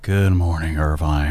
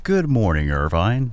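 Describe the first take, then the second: First: It is said sleepily, low in energy. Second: It is said in a plain radio voice.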